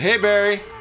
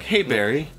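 First: It is yelled at a loud volume. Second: It is said at a quiet, normal volume.

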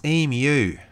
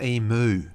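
First: The word ends with a 'myoo' sound. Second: The word ends with a 'moo' sound. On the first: The speaker calls it right. "it's emu" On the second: The speaker calls it wrong. "not emu. Moo is what a cow makes"

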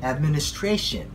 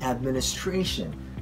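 First: The main stress is on the fourth syllable. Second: The same.

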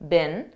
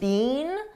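First: The word is short and unstressed. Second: The word is full and stressed. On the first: This is the American pronunciation. "This is how we pronounce the past participle of the verb be, been, in American English" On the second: This is the British pronunciation. "I believe in British English they pronounce it more stressed"

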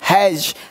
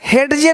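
First: The d sound is silent. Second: The d sound is clearly pronounced. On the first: The speaker calls it right. "नहीं हैज" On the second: The speaker calls it wrong. "हेडजे नहीं"

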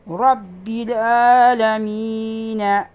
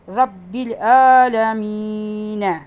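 Both takes have the same delivery.

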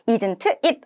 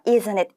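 First: The two words are said separately. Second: The two words are linked together. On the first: The speaker calls it wrong. "isn't it 아니고요" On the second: The speaker calls it right. "isn't it 이런 식으로 연음이 될 거예요"

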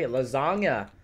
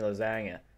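First: The word is pronounced in a normal way. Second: The word is pronounced in an odd way. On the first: The speaker calls it right. "I'm sorry" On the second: The speaker calls it wrong. "I've never said it like that in my life"

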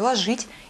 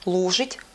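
First: The stress is on the second syllable. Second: The stress is on the first syllable. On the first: "употребление форм вроде «ложить»" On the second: "что еще хуже"

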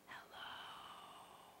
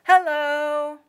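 First: It is said quietly. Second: It is said loudly.

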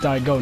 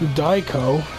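First: The middle consonant is a voiced g sound. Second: The middle consonant is a hard k sound. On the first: The speaker calls it right. "It's Daigo, not Daiko" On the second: The speaker calls it wrong. "Said that wrong"

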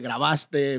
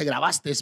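First: The word ends in a vowel, no final s. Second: The word ends with an added s sound. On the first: The speaker calls it right. "todas las palabras terminadas con E no llevan S al final" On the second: The speaker calls it wrong. "Mucha gente en los medios de comunicación dice"

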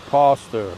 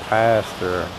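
First: The word is said in a South African accent. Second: The word is said in an American accent. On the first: "In South Africa, they say pastor" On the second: "In America, they say pastor or pastor"

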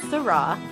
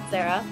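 First: It sounds like see-rah, with a different first vowel. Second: It sounds like the woman's name Sarah. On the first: The speaker calls it right. "It's Syrah" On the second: The speaker calls it wrong. "It's not Sarah"

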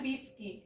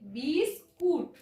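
First: The last syllable sounds like kit. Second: The last syllable sounds like kut. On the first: The speaker calls it wrong. "Not বিস্কিট" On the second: The speaker calls it right. "কারণ আমি বাঙালি"

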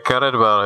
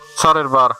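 First: The name is said with an English pronunciation. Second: The name is said with a Czech pronunciation. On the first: The speaker calls it wrong. "Tohle není anglická hra, aby to měla anglickou výslovnost" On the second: The speaker calls it right. "Je to Caredvar"

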